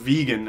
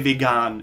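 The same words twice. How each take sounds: First: It is pronounced the English way. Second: It is pronounced the German way. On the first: "instead of vegan" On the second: "We just say vegan"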